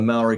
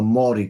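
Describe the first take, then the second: First: Maori is said in an everyday English way. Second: Maori is said in the native Maori way. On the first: The speaker calls it wrong. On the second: The speaker calls it right.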